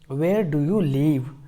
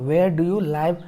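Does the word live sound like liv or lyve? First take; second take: liv; lyve. First: Live is said with a short i, like liv. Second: Live is said with an eye vowel, like lyve. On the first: The speaker calls it right. "यहाँ लीव है, लाइव नहीं है" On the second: The speaker calls it wrong. "लाइव मत पढ़िएगा"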